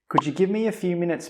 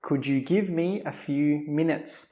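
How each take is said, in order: First: It is said quickly with reduced words. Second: It is said slowly and carefully.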